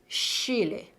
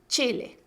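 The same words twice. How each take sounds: First: The first sound is a smooth fricative sh. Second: The first sound is an affricate ch. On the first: The speaker calls it wrong. "No es Chile" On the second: The speaker calls it right. "es Chile"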